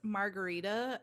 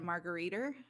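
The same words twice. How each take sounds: First: The word ends with a plain 'a' vowel. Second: The word ends with an 'er' sound.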